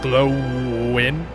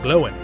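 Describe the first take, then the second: First: The W sound is clearly pronounced. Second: The W sound is dropped, nearly silent. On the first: The speaker calls it wrong. "It's not glowing" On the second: The speaker calls it right. "you don't really say the W, it's like glowing"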